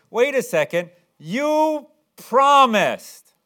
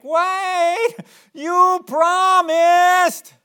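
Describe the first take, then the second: First: Loud, high-pitched mock complaint; imitating an indignant child holding you to it; whining protest. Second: Hammed-up, very high drawn-out whine; exaggerated mock-child wail; whining. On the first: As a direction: protest like a let-down kid, drawing out the words. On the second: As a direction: whine it loudly like a pleading kid. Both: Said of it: "They usually say it kind of whining like".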